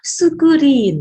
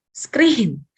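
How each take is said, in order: First: It is said with added vowels, Japanese-style. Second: It is said with an English consonant cluster.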